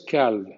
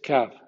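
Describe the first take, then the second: First: The L sound is pronounced in the word. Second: The L sound is silent in the word. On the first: The speaker calls it wrong. "no es calv" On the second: The speaker calls it right. "en ALV la L habitualmente no existe"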